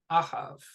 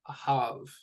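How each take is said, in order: First: The stress is on the first syllable. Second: The stress is on the last syllable. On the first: The speaker calls it wrong. "It wouldn't be pronounced I have. ... that would be an incorrect way to pronounce that word" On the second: The speaker calls it right. "The ha gets the stress. It's that final syllable"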